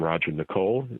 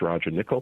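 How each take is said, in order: First: The surname ends like the name Nicole. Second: The surname sounds like the word nickel. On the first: The speaker calls it wrong. "Some people call him" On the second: The speaker calls it right. "Correct pronunciation is"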